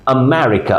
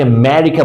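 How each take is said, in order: First: আমেরিকা with a faint "uh" before "MERica"; correct light schwa. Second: আমেরিকা with the first vowel dropped, "Merica"; wrong pronunciation. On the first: Teacher corrects learners, আমেরিকা with its light opening schwa. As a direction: open আমেরিকা on a light, short uh. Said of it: "হালকা আম, আ sound আছে". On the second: Teacher quotes a common mistake, আমেরিকা said as "Merica". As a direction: start আমেরিকা straight on the "m". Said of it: "ভুল". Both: Shown as a demonstration.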